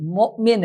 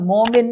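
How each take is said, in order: First: مؤمن with a glottal stop after the mim; hamza with a catch. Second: مومن with a plain long o; no hamza in مومن; wrong reading. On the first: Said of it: "اس کو جھٹکا دے کے پڑھیں گے". (ہمزہ جھٹکے سے) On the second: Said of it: "مؤمن ہے لفظ". (غلط: مومن) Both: Shown as a demonstration.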